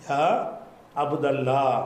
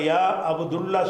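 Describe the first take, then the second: First: The vowel after 'Abd' is a. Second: The vowel after 'Abd' is u. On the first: The speaker calls it right. "சொல்லணும்" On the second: The speaker calls it wrong. "சொல்லக்கூடாது"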